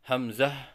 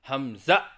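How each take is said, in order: First: Short first vowel, ending in a soft h. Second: It ends with an abrupt glottal stop. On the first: The speaker calls it right. "तो सही अदायगी है" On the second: The speaker calls it wrong. "आखिर की हा को हमज़ा से बदल कर पढ़ना"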